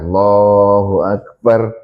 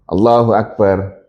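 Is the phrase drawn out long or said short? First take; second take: long; short. First: The phrase is drawn out long. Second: The phrase is said short and quick.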